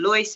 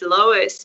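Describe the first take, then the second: First: The name is said with an Afrikaans pronunciation. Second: The name is said with an English pronunciation. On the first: This is how the family says it at home. "your dad called you Lois because that's how he pronounces it" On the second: This is the name's official pronunciation. "it's Lois"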